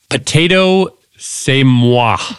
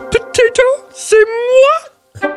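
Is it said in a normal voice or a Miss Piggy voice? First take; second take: normal voice; Miss Piggy. First: It is said in his normal voice. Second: It is said in a Miss Piggy voice.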